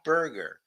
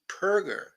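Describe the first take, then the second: First: The name part begins with a B sound. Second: The name part begins with a P sound. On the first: The speaker calls it wrong. "not Burger" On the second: The speaker calls it right. "it's Raffensperger"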